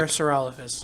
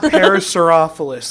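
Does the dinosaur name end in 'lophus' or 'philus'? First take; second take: lophus; philus. First: The name ends with the sounds 'lophus'. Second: The name ends with the sounds 'philus'. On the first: The speaker calls it right. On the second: The speaker calls it wrong.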